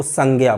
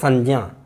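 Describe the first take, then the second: First: "संज्ञा" said as sang-gya; hard g and y for ज्ञ in "संज्ञा"; common popular pronunciation. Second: "संज्ञा" said as sanj-ya, with a j; palatal pronunciation. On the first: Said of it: "अधिकतर लोग इसको". ("संज्ञा" को संग्या जैसे बोलना) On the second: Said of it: "अब इस तरह से". ("संज्ञा" में ञ और ज की ध्वनि) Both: Shown as a demonstration.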